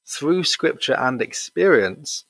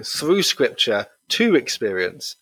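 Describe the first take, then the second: First: "through scripture and experience" read slowly; measured quote, "scripture and experience" as one phrase; slow, deliberate "through scripture and experience"; scripture and experience together. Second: "to" set apart before "experience"; slow, pointed correction landing on "to"; stress on TO. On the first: Quote set against his correction. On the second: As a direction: lean on "to" in "scripture to experience". His pointed correction of the quote. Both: Retold or imitated.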